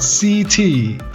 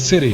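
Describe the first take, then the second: First: The word is said like the letters 'C T'. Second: The word is said quickly as 'city'. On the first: The speaker calls it wrong. "Not C T" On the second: The speaker calls it right.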